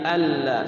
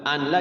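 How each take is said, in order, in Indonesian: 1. Bunyi n menyatu menjadi l yang dobel. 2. Bunyi n terdengar sebelum l. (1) "Anla jadi alla" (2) "itu anla ya"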